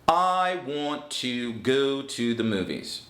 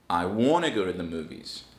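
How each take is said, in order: First: Each word is said separately and in full. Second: 'Want to' is blended into one reduced word. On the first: "that's perfect pronunciation" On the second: "Using connected speech, want to now becomes I wanna"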